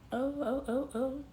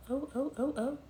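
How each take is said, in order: Both takes have the same delivery.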